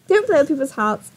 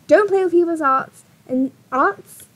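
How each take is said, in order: First: "hearts" with a clear initial H; H pronounced. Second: "arts" with the H left off; dropped H. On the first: Correcting her slip while reading advice, "hearts" with the H sounded. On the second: Reading her advice to him, "arts" with a dropped H. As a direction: say "arts" with no initial breath sound. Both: Real, not acted.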